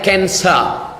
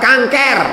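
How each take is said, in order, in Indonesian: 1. Kata itu diucapkan dengan lafal Inggris. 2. Kata itu diucapkan dengan lafal Indonesia. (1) "Cara membacanya cancer" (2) "Orang kita payah nyebut cancer, kenapa?"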